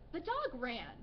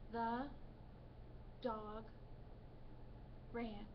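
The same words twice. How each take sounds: First: It is read with lively excitement. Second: It is read flatly, like a robot. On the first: The speaker calls it right. "A way to read it with expression is, maybe with excitement" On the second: The speaker calls it wrong. "A student who is having difficulty with reading expression would read"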